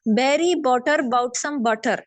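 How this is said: It sounds like a Punjabi or Urdu speaker.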